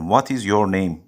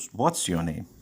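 First: The words 'what is' are said in full. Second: The words 'what is' are contracted to 'what's'. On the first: The speaker calls it wrong. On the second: The speaker calls it right.

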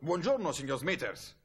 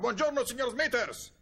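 First: The greeting is called out fairly loudly. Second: The greeting is bellowed at full volume. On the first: The speaker calls it wrong. "Gli ho urlato" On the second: The speaker calls it right. "Con una voce che si sentiva fino a New York ho urlato ancora"

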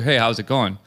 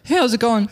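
First: He greets in his ordinary everyday voice. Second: He greets in an altered, self-conscious tone.

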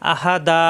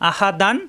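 First: The word ends in a long a vowel. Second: The word ends in an n sound. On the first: The reader stops at this word. "পড়তে হবে আহা দা" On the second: The reader continues without stopping. "অক্ষ না করলে আহা দান"

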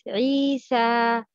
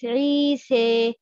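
First: The final vowel is a pure open a. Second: The final vowel leans toward an ee sound. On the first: The speaker calls it right. "The right pronouncing is Isa" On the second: The speaker calls it wrong. "The wrong pronouncing is Isa. No, don't add kasra"

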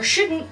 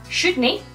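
First: The word ends with a 't' sound. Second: The word ends with a 'nae' sound. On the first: "your shouldn't" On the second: "replace all of this, the O's and the apostrophe and T's, with A, E"

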